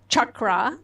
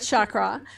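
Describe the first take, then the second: First: It uses the Sanskrit pronunciation of the word. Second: It uses the popular English pronunciation of the word. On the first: The speaker calls it right. "the word is chakra" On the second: The speaker calls it wrong. "It's not chakra"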